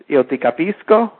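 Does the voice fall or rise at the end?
rises. The voice rises at the end, a question.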